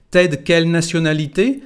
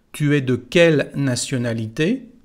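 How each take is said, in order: First: "t'es" glued to "de" in one quick breath, Tu es de merged; native contraction. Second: Every word said apart, Tu es de; careful textbook take: "Tu es de quelle nationalité?" with each word separate; school French. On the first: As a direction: say "t'es de quelle nationalité?" as one run. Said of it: "tu es de llega a ser t'es". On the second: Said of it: "Vamos a empezar normalmente, la de la escuela". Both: Shown as a demonstration.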